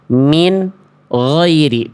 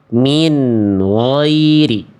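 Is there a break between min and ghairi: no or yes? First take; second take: yes; no. First: A break separates min from ghairi. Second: Min runs straight into ghairi without break. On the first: The speaker calls it wrong. "bunyi nun sukunnya terjeda dengan huruf berikutnya" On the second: The speaker calls it right. "tapi yang A harusnya"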